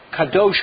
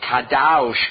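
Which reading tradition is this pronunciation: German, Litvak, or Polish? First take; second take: Polish; German. First: A Polish reading of the same vowel. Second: A German reading, with the vowel as 'au'. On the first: "let's say you're Polish" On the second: "If you're German, Au"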